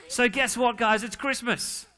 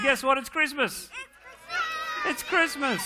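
First: Higher-pitched, building up the big news; mock excited announcement. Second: Bigger excitement. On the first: Pastor hyping the children about Christmas, playful excitement. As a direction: tease the kids into cheering. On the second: Acted. Pastor retrying for more cheer from kids, shouted excitement. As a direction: go all out to get them cheering. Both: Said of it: "We'll try again".

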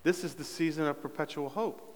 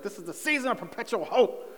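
First: Soft, understated delivery of a stock line; imitating his catchphrase. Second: Higher-pitched, exasperated mock outburst; frustrated mom impression. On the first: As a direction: recite the catchphrase softly, at your usual pitch. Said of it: "I'll say". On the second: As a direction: imitate a mother at the end of her rope. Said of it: "she just gets all frustrated".

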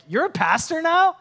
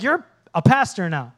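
First: High-pitched question of disbelief; can't believe it; incredulous classmates. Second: Louder, falling question at normal pitch; accusing double-check; pointed disbelief. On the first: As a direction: imitate astonished classmates, pitch climbing on the question. Classmates' surprised question, acted. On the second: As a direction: imitate a skeptical old classmate. Lauren's pointed question, acted. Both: Retold or imitated.

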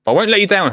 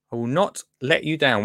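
First: Loud, high-pitched vow; raised voice, pledging to deliver; emphatic promise. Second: Measured promise leaning on NOT; stress on NOT. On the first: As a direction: burst out with a determined promise. Rallying herself to attempt the accent. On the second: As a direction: set NOT apart, firmly. Repeats the promise, spelled out. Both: Real, not acted.

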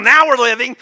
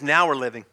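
First: Loud, raised preacher's cry; rally the congregation with it; rousing shout. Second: Said in the usual way. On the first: Real, not acted. Same slogan shouted to congregation.

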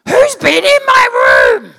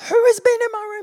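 First: Much higher, loud shout of an outraged sister; mock furious shout. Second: "has" punched, in a high, laughing sister voice; stress on has. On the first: Sister shouting on finding her room messed with, in a high mock yell. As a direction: bellow it as the wronged sister, drawn out. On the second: Retold or imitated. Sister repeating her question, leaning on "has" in a high laughing voice. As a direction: hit "has" as the sister, much higher.

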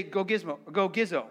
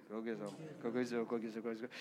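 First: Said in the usual way. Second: "Go Gizzo" murmured low and much softer, slowly; slow murmuring. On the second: Shown as a demonstration. Pastor showing congregation the murmuring word, low and soft. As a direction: mumble "Go Gizzo" under your breath, drawn out. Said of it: "say it kind of slow and murmuring".

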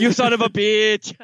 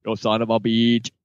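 First: High, hammed-up Austrian-accented movie line; botched Austrian accent. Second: Put-on low Austrian-accented action-hero line; attempted Austrian accent. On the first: Co-host echoing a favourite movie line, shaky Austrian accent attempt. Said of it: "I can't do the accent". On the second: Co-host retrying the catchphrase after apologising to listeners, low Austrian accent. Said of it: "I can't do it".

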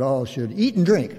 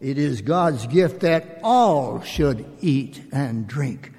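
First: "eat" leaned on, falling after it; reading that stresses "eat". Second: Slow, with "all" clearly prominent and falling; "all" stressed, the rest kept even. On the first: Retold or imitated. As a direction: land the weight on "eat", not "all". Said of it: "Chris, you emphasized". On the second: Shown as a demonstration. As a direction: press hard on the word "all". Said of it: "the emphasis is on the word all".

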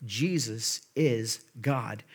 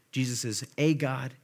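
First: Very slow and low, weight on IS; stress on IS. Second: The article "a" said as a full "ay"; stress on A. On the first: Preacher giving the true reading, slow stress on IS. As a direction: spread out each word, leaning on "is". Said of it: "What it's saying is that the Word". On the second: Preacher citing a mistaken reading, stress on A. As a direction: hit "a" as a separate, stressed "ay". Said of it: "little a, little g, uh, a God". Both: Shown as a demonstration.

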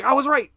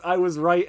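First: High, loud gloating cry; triumphant yell. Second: Said in the usual way. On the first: Retold or imitated. Don pulls out his phone to gloat to his wife, yelling. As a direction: crow it in vindication. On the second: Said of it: "he's trying to text".

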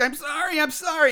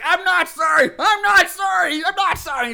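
First: High, plaintive imitation of a tearful apology; mock crying. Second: Loud, high mock-enraged shouting; tearful anger. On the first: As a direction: plead as if starting to cry. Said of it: "he starts crying". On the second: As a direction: shout it defiantly, over and over. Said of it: "the crying turns to anger".

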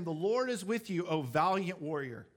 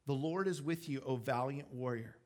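First: Said in the usual way. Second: Understated, sincere address; measured and sincere, settling lower at the end; sincere pronouncement. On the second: Acted. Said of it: "I really do think God is speaking to him".

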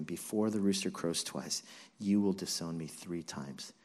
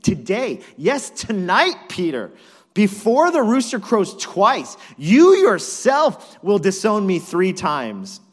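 First: Low, softened recollection; hushed, heavy echo of a warning; somber remembered words. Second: Loud, high, punched phrases; emphatic, high-volume warning; forceful prediction. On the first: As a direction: recall the prophecy quietly, as it sinks in. Peter remembers Jesus' words, grieved. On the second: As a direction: hammer each phrase of the prophecy home. Jesus answers Peter's boast. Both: Acted.

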